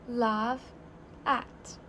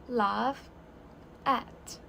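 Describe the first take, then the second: Both takes have the same delivery.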